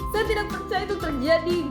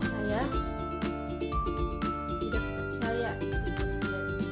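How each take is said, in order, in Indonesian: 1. Nada ringan naik-turun, terdengar senang. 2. Nada rendah dan lambat, terdengar sedih. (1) "senang. Nada ringan atau naik turun" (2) "sedih atau nada rendah atau lambat"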